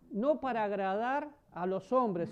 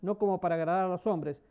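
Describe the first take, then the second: First: "No" stressed and drawn out, the whole line slowed down; slow stressed repeat. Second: Said in the usual way. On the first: Shown as a demonstration. Pastor repeating the verse to the congregation, slow and stressed. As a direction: lean on "No" and take the phrase slowly.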